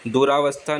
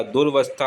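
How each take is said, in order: First: दुरावस्था as "du-raa-vastha"; long aa after r in दुरावस्था; wrong extra vowel. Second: दुर्वस्था as "dur-vastha"; r straight into v in दुर्वस्था; corrected short form. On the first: Teacher showing the error, दुरावस्था with "raa". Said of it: "दुरावस्था नहीं होता". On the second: Teacher correcting it, दुर्वस्था with no vowel after r. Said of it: "दुर्वस्था होता है". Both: Shown as a demonstration.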